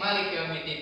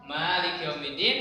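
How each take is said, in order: First: The first vowel of Malik is kept short. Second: The first vowel of Malik is held long. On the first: This is another accepted reading of the verse. "ada juga yang pendek" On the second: This is one accepted reading of the verse. "Ada yang membaca panjang"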